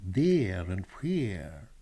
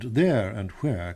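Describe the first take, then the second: First: The vowels are shifted in a mock-Italian way. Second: The vowels are said in plain English. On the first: The speaker calls it wrong. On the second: The speaker calls it right.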